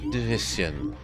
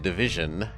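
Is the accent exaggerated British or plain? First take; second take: exaggerated British; plain. First: It is said in an exaggerated British accent. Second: It is said in a plain, unexaggerated accent. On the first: The speaker calls it right. "You say it extra Britishly" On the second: The speaker calls it wrong. "You don't say it division"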